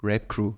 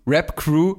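First: Said in the usual way. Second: „Crew“ betont, lauter und höher mit steigendem Ende; „Rap Crew“ laut und klar gegen das Missverständnis setzen; deutliche Korrektur. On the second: Shown as a demonstration. („Rap Crew“ betont und deutlich korrigierend)

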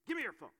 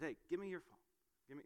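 First: Higher, louder mock-angry order; angry dad. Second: Said in the usual way. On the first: Dad angrily demanding his son's phone, loud and sharp. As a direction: snap it like a fed-up dad. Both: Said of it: "now I'm getting angry".

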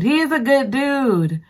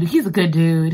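First: He IS a good dude, pitched up; insisting he is a good dude; emphatic praise. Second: Said in the usual way. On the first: Real, not acted. Repeats praise, higher.

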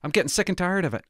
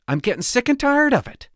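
First: Said in the usual way. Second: Pitched up, fed up and venting; rising exasperation, louder the second time; exasperated outburst. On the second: Real, not acted. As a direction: say it again, higher and sick of it all. Repeats complaint, rising anger.

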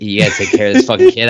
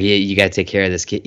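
First: Louder, rushed exasperated demand. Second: Said in the usual way. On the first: Retold or imitated. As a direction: ramp it up, louder and faster. Bruce ordering Alfred.

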